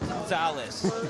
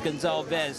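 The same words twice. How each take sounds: First: The name is said without a V sound. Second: The name is said with a V sound. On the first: The speaker calls it wrong. "not Gonzalez" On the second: The speaker calls it right. "it's Gonzalez"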